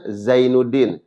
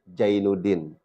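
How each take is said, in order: First: The name begins with a 'z' sound. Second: The name begins with a 'j' sound.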